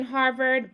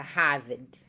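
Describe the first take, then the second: First: Said in the usual way. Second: "Harvard" with no R, audible H; Boston Harvard. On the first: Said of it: "Notice how". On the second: Shown as a demonstration. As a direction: say "Harvard" as Hah-vid. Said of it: "I kind of emphasized".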